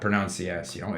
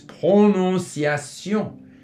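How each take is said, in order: First: It is said with English-style vowels. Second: It is said with full French vowels. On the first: The speaker calls it wrong. "the tendency from English, ... is to say pronunciation. It's not pronunciation" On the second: The speaker calls it right. "it's prononciation"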